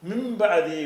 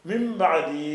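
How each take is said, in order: Both takes have the same delivery.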